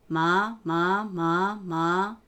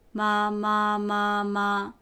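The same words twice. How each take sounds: First: The pitch rises from low to higher. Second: The pitch stays high and level. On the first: "二声、" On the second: "一声、"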